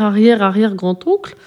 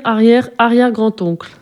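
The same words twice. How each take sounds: First: "arrière, arrière grand-oncle?" echoed with a rising tune at the end; puzzled question. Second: "arrière, arrière grand-oncle" stated, pitch falling at the end; falling statement. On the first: ("arrière, arrière grand-oncle?" répété, intonation montante étonnée) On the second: ("arrière, arrière grand-oncle" affirmé, intonation descendante) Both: Acted. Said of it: "Mon arrière, arrière, arrière grand-oncle?".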